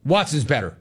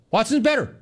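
First: Said in the usual way. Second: Same claim squeaked up high; high-pitched mock announcement. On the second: Host mimicking a coach's unlikely announcement, high-pitched mockery. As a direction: repeat it high, as an absurd quote.

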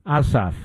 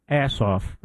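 First: Ossoff with an open "ah" at the start; Ossoff, first vowel as in "father"; first pronunciation. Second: Assoff with "ass" as first syllable; Assoff, first vowel as in "cat"; deliberate mispronunciation. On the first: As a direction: say Ossoff opening on "ah", not "ass". Gives two readings of a surname. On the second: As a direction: say Assoff so the "ass" is plainly heard. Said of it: "I think I would pronounce it". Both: Shown as a demonstration.

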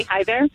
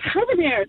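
First: Said in the usual way. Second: Put-on a high, lilting baby's greeting; imitating a baby's first words, lightly pitched up; baby talk. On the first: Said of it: "trying to say". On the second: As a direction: sing it out like a toddler saying hello. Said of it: "but I would say".

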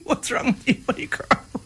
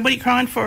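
First: Mock dad's dismissive question, barely voiced; unsympathetic dad. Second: Said in the usual way. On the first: Retelling dad's response to a crying child, dismissive and half-voiced. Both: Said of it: "you can tell then by the response".

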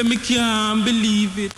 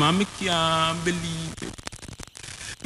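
First: Outcry of disbelief. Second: Hushed disbelief. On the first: Refrain answered louder. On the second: Refrain said low, then answered. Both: Acted.

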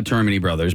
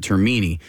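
First: Termini said TER-muh-nee; first-syllable stress. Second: Termini said ter-MEE-nee; middle-syllable stress. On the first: Shown as a demonstration. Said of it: "I, I personally say". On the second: Retold or imitated. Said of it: "sales office calling it".

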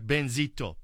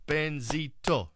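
First: Said in the usual way. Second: "Benzito" slowly, in three separate beats; broken into syllables. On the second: Shown as a demonstration. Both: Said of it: "three syllables".

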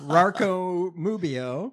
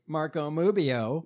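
First: Very drawn-out "Marco Mubio", starting "Marco" with an R; mangled joke name. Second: "Mubio" said slowly with an M in place of R; deadpan joke name. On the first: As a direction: stretch "Marco Mubio" out, cartoonishly slurring "Marco" into "Rarco". Repeats and further mangles joke name. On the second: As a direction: slip "Mubio" slowly into a news read. Joke name slipped into news read. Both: Pretend.

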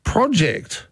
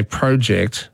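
First: "Project" with a short O, PROJ-ect; producer's pronunciation of project. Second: "project" with a long O, PROH-ject; own pronunciation of project. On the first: Retold or imitated. Host mimicking his producer's way, short-O project. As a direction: say "Project" so it starts like "prod". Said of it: "he says". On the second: Shown as a demonstration. Host quoting his own way of saying it, long-O project. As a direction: say "project" with first syllable like "pro". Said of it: "when I say project".

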